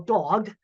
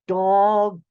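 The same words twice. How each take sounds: First: The word is said at normal speed. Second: The word is said slowly, each sound drawn out.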